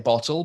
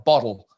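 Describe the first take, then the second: First: The t is pronounced as a clear t. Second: The t is pronounced like a d. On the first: The speaker is talking carefully. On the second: The speaker picked up an Australian habit. "it turned into D's"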